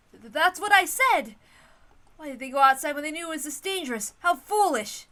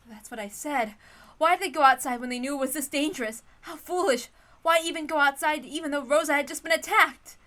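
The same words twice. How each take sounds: First: Loud, high, scolding anger; indignant outburst. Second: Loud, high exasperation, a bit less forced; indignant retake. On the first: Natsuhi blaming the reckless group, loud and angry. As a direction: snap it out in indignation. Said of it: "Wait, I'm sorry. That's probably Natsuhi's line". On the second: Natsuhi blaming the reckless group, exasperated and loud. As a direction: scold the absent group sharply. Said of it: "That's probably Natsuhi's line". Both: Acted.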